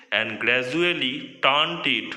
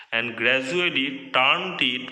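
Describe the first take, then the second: No difference in how they are said.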